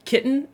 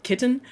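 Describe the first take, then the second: First: KITTEN with the T swallowed into a catch before N; Utah dropped T. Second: KITTEN with a clearly sounded T; pronounced T. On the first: Utah speaker shows their own KITTEN, T dropped. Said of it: "we don't say our T's". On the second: Utah speaker shows what they avoid, KITTEN with a full T. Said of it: "and not kitten". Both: Shown as a demonstration.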